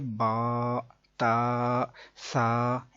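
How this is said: The letter names end in an 'ah' vowel. The speaker calls it right. "अरबी लहजे के मुताबिक"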